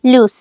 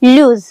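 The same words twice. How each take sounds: First: लूज clipped short with a hissed s at the end; लूज said quickly, short vowel, sharp s; quick loose. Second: लूज with a long, stretched oo and a buzzing z; लूज said slowly, long oo, voiced z; drawn-out lose. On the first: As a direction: say लूज fast, short oo, s not z. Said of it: "इसे हम जल्दी से बोलते हैं लूज". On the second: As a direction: stretch the vowel of लूज, end on z. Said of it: "खींच कर बोलते हैं". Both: Shown as a demonstration.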